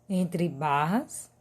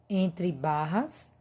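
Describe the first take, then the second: No difference in how they are said.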